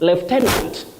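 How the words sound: It is said with a British pronunciation. "that is in British English"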